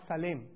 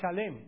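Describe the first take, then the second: First: The name begins with an 's' sound. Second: The name begins with a 'sh' sound. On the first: The speaker calls it wrong. "not Salem" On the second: The speaker calls it right. "actually in Hebrew it is Shalem"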